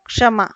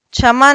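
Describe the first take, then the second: First: क्षमा begun with a clear ksh, kshama; क्षमा with a crisp k then sh; correct pronunciation. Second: क्षमा begun with a chh sound, chhama; क्षमा said as chhama, no ksh; wrong pronunciation. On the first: Teacher giving students the correct क्षमा, clearly pronounced. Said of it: "शुद्ध रूप क्या बनता है इसका?". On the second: Teacher showing students the wrong क्षमा, mispronounced. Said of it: "क्षमा नहीं होता". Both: Shown as a demonstration.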